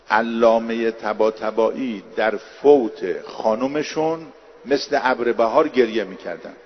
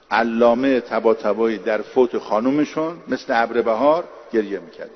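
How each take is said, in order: First: Slow first take. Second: Said in the usual way. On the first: Shown as a demonstration. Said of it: "repeats the same sentence". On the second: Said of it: "repeated at normal pace".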